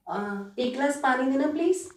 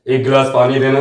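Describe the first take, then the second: First: The voice is light and high. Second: The voice is deep and heavy.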